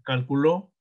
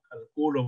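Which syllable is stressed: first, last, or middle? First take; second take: last; middle. First: The stress is on the last syllable. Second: The stress is on the middle syllable. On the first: "aguda cuando lleva el acento en la última sílaba" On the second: "grave cuando lleva el acento en la penúltima sílaba"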